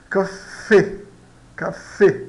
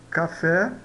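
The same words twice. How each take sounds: First: "café" in two syllables, punched closed E at the end; closed E pronunciation. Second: Said in the usual way. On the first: Shown as a demonstration. Teacher modelling Spanish E for learners, closed vowel. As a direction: split "café" as ca-fé, narrowing the last vowel. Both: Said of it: "se aproxima do E fechado".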